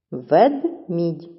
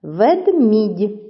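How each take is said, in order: First: "Ведмідь" as Вед... мідь; split into syllables. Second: Said in the usual way. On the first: Shown as a demonstration. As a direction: say "Ведмідь" with a gap between syllables. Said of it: "чи правильно поділили ви". («Ведмідь» по складах: Вед... мідь) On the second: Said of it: "наголошений другий склад".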